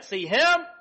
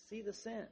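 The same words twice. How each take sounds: First: "him" hit loud and high; stress on HIM. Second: Said in the usual way. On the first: Shown as a demonstration. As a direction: point hard at him. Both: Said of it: "That's the emphasis".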